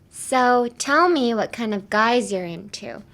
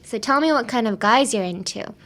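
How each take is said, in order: First: The sentence is spoken slowly. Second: The sentence is spoken at normal speed.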